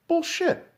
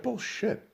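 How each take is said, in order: First: Higher pitched incredulous bullshit; high scoff. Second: Muttered scoff. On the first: Podcaster repeating his scoff, high and incredulous. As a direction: toss it up high in disbelief. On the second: Podcaster scoffing at the government line, muttered. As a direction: scoff it under your breath. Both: Real, not acted.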